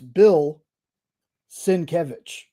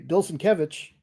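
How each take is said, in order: First: The name is split after 'Bill'. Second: The name is split after 'Bilson'. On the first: The speaker calls it right. "no, it's Bill Sienkiewicz" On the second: The speaker calls it wrong. "for the longest time I thought it was Bilson Kevich"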